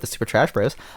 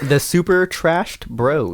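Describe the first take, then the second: First: The name is said at a normal, quick pace. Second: The name is said slowly and more deliberately.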